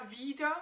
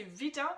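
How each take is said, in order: First: "wieder" with a long, stressed "ie"; accent the first vowel of "wieder", as in again. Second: "wieder" with a short, quick I, like "wider". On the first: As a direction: hold the I in "wieder". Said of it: "avec un E et le I accentué". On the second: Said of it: "avec un I court". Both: Shown as a demonstration.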